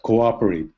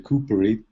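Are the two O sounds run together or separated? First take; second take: separated; run together. First: The two O sounds are said separately. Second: The two O sounds merge into one coo. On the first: The speaker calls it right. "but cooperate" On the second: The speaker calls it wrong. "You don't say cooperate"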